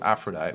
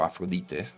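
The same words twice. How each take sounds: First: The name has an English pronunciation. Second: The name has a Greek pronunciation.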